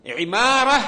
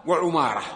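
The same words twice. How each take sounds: First: عمارة said ʕimāra, with an i after the ayn; stressed عمارة as "ʕi-MAA-ra"; kasra on the ayn. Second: وعمارة said wa-ʕumāra, with a u after the ayn; وعمارة as "wa-ʕu-MAA-ra"; damma on the ayn. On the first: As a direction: start عمارة with a clear "ʕi", long middle a. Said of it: "يقول بكسر العين". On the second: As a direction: give وعمارة a rounded "ʕu" opening. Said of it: "يقول بضم العين". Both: Shown as a demonstration.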